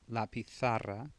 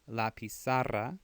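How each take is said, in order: First: The z is pronounced as a th sound. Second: The z is pronounced as an s sound. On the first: It sounds like the Spanish of Spain. "or T H sound in Spain" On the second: It sounds like Latin American Spanish. "the Z's make S sounds in Latin America"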